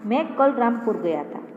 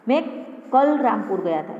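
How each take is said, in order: First: The stress is on मैं. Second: The stress is on कल.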